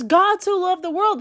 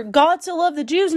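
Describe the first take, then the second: First: World stressed and falling, settled; firm stress on world. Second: Rising tune on Jews as a wrong guess; questioning Jews. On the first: Preacher gives the right verse, firm fall on world. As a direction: land firmly on world as the true answer. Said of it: "It says". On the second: Preacher testing a wrong reading, rising on Jews. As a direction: lift Jews like a doubtful question. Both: Shown as a demonstration.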